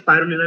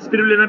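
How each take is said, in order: First: The first syllable has an 'eye' vowel. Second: The first syllable has a short 'i' vowel. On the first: "स्पाइरुलिना भी ठीक है" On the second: "स्पिरुलिना भी ठीक है"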